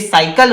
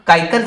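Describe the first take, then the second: First: The word begins with an s sound. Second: The word begins with a k sound. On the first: The speaker calls it right. "ये साइकिल होगी ना" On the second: The speaker calls it wrong. "काइकल थोड़ी"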